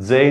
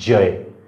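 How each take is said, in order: First: The first consonant is a dental dz-like sound. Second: The first consonant is a palatal j sound. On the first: The speaker calls it wrong. "जय नाही येते" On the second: The speaker calls it right. "बघा कडा उचलल्या"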